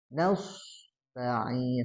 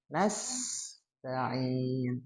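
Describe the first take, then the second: First: The s sound is heavy and thick. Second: The s sound is light and thin. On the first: The speaker calls it wrong. "hati-hati dibaca tebal" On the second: The speaker calls it right.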